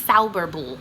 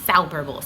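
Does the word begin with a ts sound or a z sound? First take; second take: ts sound; ts sound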